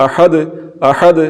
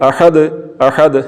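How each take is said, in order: No difference in how they are said.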